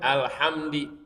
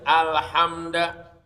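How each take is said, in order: First: The word ends with an i vowel. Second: The word ends with an a vowel. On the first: "baca jar kasro" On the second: "dibaca fathah huruf dalnya"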